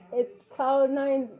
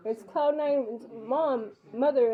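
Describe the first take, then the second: First: Each word drawn out slowly, naming herself to the intercom; slow careful announcing. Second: Slowly spelled-out self-introduction; slow careful announcing. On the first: Mother announcing herself at the locked intercom, slowly. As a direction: spell out who you are slowly and clearly. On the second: Mother repeating who she is to the intercom, slowly. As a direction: drag each word so the intercom hears. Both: Retold or imitated.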